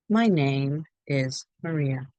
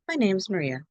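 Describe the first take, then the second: First: Each word is said separately and clearly. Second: The words are contracted and run together. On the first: "I want you to say things clearly"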